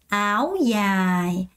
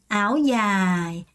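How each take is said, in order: No difference in how they are said.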